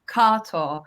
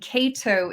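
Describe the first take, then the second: First: The name is said the original way. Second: The name is said the Americanized way. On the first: This is the name's true original form. "actual pronunciation" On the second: This is the adapted form used in America. "my evolved American name"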